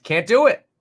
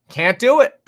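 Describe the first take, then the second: First: Said in the usual way. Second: Higher and louder, driving it home; louder emphatic repeat. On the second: Shown as a demonstration. Vlogger hammering his point to viewers, loud and emphatic. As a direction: say it again with more force. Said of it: "emphatic repeat".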